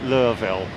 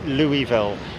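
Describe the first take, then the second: First: Pronounced the way local residents say the city. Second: Pronounced the way outsiders say the city. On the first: "For those of uh, of the locals, it's Louisville" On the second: "for those of us in in uh, Angleterre, it's Louisville"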